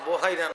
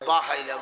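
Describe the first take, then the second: First: The first syllable has a rounded 'o' vowel. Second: The first syllable has an open 'a' vowel. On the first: The speaker calls it wrong. "নয়" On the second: The speaker calls it right. "বি ফাতিহিল বা, বায়ের মধ্যে জবর দিলে কি হয়?"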